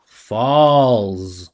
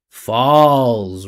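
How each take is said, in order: Both takes have the same delivery.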